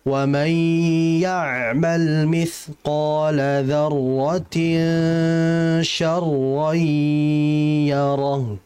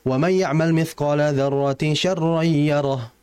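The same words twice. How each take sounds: First: It is recited slowly, holding sound lengths. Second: It is recited too fast.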